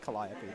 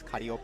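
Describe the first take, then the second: First: The name is said with English-style sounds. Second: The name is said with Japanese-style sounds. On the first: This is the name's usual English form. "correct English translation uh pronunciation is apparently Calliope" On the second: This is the name as used in the Japanese version. "her name in Japanese is Calliope"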